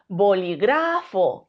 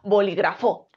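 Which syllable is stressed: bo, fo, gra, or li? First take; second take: gra; fo. First: The stress is on the third syllable. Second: The stress is on the last syllable. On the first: "Si creemos que es gra" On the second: "Y si cre creemos que es fo"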